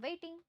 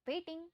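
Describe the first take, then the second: No difference in how they are said.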